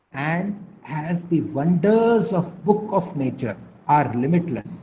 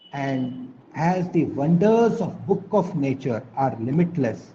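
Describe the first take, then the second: The two takes are said the same way.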